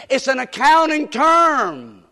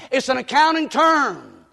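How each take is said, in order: Both takes have the same delivery.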